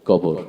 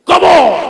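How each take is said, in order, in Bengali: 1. এটি মসৃণ, গীতিময় ভঙ্গিতে আবৃত্তি করা হয়েছে। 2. এটি রাজনৈতিক বক্তৃতার মতো জোরে গলা তুলে আবৃত্তি করা হয়েছে। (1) "অনেক সুন্দর করে আবৃত্তি করছে" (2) "নেতারা তো সাধারণত রাজনীতির মঞ্চে ব- বক্তব্য দিয়ে অভ্যাস"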